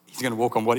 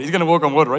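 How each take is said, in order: First: Said in the usual way. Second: Eager guess. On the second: Retold or imitated. Angels betting, louder retake.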